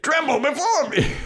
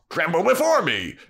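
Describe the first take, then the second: First: Much higher squeaky little demon. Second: Demon voice. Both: Retold or imitated. Demon shouting repeatedly.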